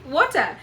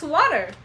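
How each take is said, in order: First: It is said in a non-American accent. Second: It is said in an American accent. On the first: This is how the speaker's own community says it. "We say water" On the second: This is how people say it in the new country. "you come here and it's water"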